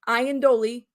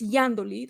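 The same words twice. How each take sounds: First: The name is pronounced the anglicized way. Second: The name is pronounced the non-anglicized way. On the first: This is how English speakers would say it. The speaker calls it wrong. "you would say it in English" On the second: This is how the person herself says it. The speaker calls it right. "that's how she pronounces it"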